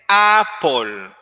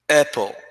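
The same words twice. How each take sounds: First: The unstressed vowel is full and long. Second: The unstressed vowel is weak and short. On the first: The speaker calls it wrong. "you don't say apple" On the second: The speaker calls it right. "it's very short"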